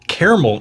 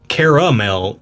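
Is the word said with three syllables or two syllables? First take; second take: two syllables; three syllables. First: The middle vowel is dropped, giving two syllables. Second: The middle vowel is kept, giving three syllables. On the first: It names a place. "caramel is a place" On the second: It names the sweet food. "Caramel is the thing that you eat. ... There's a second A there"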